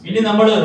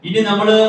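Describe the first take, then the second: Both takes have the same delivery.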